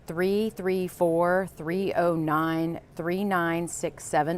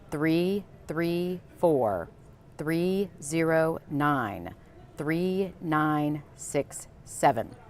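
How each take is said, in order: First: The number is read at a normal pace. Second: The number is read slowly and deliberately.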